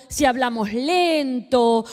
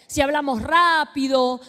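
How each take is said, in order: First: "lento" drawn out slowly, said slowly; preacher acting out slow speech, slowly; slow demo. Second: Said in the usual way. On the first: Shown as a demonstration. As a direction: stretch out "si hablamos lento" to show slow speech.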